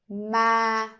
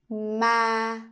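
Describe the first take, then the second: First: The pitch stays level and fairly high. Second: The pitch stays level and fairly high.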